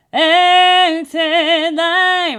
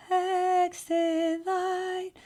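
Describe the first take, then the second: First: Sung, high, very loud, slow belt; sung, belt it out from the chest. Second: High, very slow airy head voice; breathy head voice. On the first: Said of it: "That's chest voice". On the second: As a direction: sing it thin and breathy like a weak teen. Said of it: "they have kind of a very breathy head voice". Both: Shown as a demonstration.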